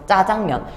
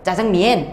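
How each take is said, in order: First: Korean reading, last syllable sounds like 'myeon'. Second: Chinese-like reading, last syllable sounds like 'mien'. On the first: This is how Koreans actually read the characters. "우리의 실제 한자를 읽는 발음" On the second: This is how the Chinese read the characters. "중국 사람들은 어떻게 읽어? ... 이렇게 읽는다고 치자"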